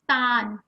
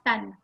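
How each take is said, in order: First: The vowel is drawn out long. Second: The vowel is kept short. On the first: The speaker calls it right. "it's a bigger vowel. Ah. So it's tan" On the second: The speaker calls it wrong. "not tan"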